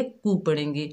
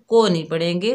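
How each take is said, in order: First: कू with a pure short u, softly; कू said the right way; correct vowel demo. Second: को with a mid o sound, marked as wrong; wrong vowel demo. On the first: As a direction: say कू, not को, as the correct form. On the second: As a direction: say को with an open o to show the mistake. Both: Shown as a demonstration.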